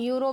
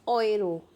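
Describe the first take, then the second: First: The word begins with a 'yoo' sound. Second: The word begins with an 'oy' sound. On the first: The speaker calls it wrong. "कुछ लोग यूरो भी बोलते हैं" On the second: The speaker calls it right. "Right pronunciation क्या होगा"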